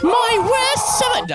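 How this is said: It is said in a put-on character voice.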